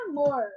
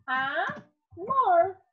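First: Said in the usual way. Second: "Amor" in two parts, A, pause, mor; teacher dividing "Amor" into A and mor; syllable by syllable. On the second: Shown as a demonstration. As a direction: stretch and separate "Amor": A... mor. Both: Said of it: "Se nós formos separar a sílaba dela".

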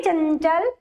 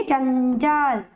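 First: चंचल said slowly, air through the nose on the anusvara; nasal demo. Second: Said in the usual way. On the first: Shown as a demonstration. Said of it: "अब बोलिए चंचल". (चंचल में अनुस्वार नाक से) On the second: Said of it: "जैसे आप लिखते हैं चंचल".

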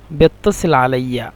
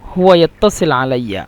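First: বেত্তাসিল with Cairo be- prefix; Egyptian dialect form. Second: হুয়া ইয়াত্তাসিল আলাইয়া in formal Arabic; standard Arabic form. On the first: Teacher contrasting the Cairo version with formal Arabic. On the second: Teacher giving the formal version before the dialect. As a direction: say ইয়াত্তাসিল crisply as Fusha. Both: Shown as a demonstration. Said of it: "মিশরের আঞ্চলিক ভাষা হলো".

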